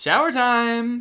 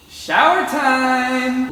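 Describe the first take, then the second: First: Said in the usual way. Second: Loud, high, drawn-out shout; sing-song shower call. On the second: Shown as a demonstration. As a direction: announce it like a daily ritual. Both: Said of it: "That's what I say every time".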